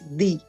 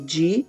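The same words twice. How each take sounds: First: The d sounds hard, a plain d. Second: The d sounds soft, like a j. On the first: This is the Pernambuco way of saying it. "quem é de Pernambuco diz di" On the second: This is the Ceará way of saying it. "eu no Ceará digo di"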